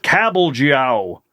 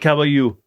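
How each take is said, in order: First: The middle consonant is a hard 'j' sound. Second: The middle consonant is a soft 'y' sound. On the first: Every written letter is pronounced, the way Americans would. The speaker calls it wrong. "we always want to pronounce every single letter" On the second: This is probably the real pronunciation. The speaker calls it right. "It's probably like"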